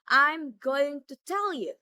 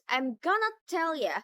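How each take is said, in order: First: Every word is said fully and separately. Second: The words are reduced and run together.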